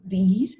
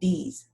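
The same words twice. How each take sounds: First: It begins with a buzzing, voiced th sound. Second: It begins with a hard d sound. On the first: The speaker calls it right. "instead of saying these" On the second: The speaker calls it wrong. "they would substitute it with the letter D"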